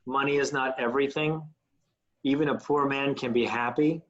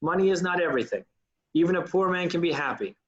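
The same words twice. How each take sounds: First: "everything" and "happy" rising at the end of each line; lifted sentence ends. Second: "everything" and "happy" falling at the end of each line; dropping sentence ends. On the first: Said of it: "lifting those ends of those lines". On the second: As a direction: let "everything" and "happy" sink down. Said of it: "tends to go down at the end of each sentence". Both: Shown as a demonstration.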